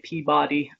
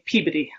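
First: It is the West Coast pronunciation of the name. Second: It is the East Coast pronunciation of the name. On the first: "a lot of people say Peabody" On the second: "In Massachusetts, they Peabody"

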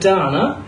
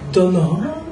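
First: The name is said in a plain English way. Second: The name is said in a French way. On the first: "Instead of" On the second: "pronouncing our names very Frenchified"

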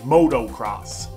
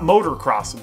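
First: The first part is said like 'moto'. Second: The first part is said like 'motor'. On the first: The speaker calls it right. "It's not motor. Moto" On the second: The speaker calls it wrong. "Not motocross"

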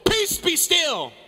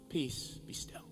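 First: It is shouted loudly. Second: It is whispered softly.

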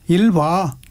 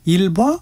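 First: It is said as a plain answering statement. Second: It is said as a question, rising. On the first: Answering that one is using the toilet. "대답" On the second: Asking whether someone is using the toilet. "물음표"

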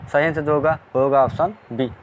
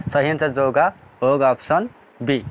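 Both takes have the same delivery.

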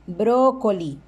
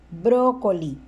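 No difference in how they are said.

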